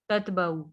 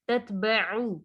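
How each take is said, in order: First: It ends in a plain oo without a throaty sound. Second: It has a clear throaty ain before the vowel. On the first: The speaker calls it wrong. "इसको ऐसे नहीं पढ़ना ततबअु ऊ नहीं है" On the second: The speaker calls it right. "आइन को वाज़े करेंगे।"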